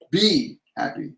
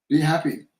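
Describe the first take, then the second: First: "Be" drawn out slowly, set apart from "happy"; stress on BE. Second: Said in the usual way. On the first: Shown as a demonstration. Psychic explaining the guides' message, long stressed "Be". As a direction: lean long on "Be", as a state of being. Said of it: "It's not an order, it's a state".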